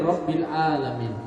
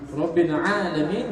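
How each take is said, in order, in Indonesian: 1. 'Alamin' diawali dengan vokal biasa. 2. 'Alamin' diawali dengan konsonan tenggorokan yang dalam. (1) "kalau dia guna alif" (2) "Tuhan semesta alam"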